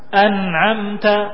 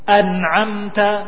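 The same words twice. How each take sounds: The two takes are said the same way.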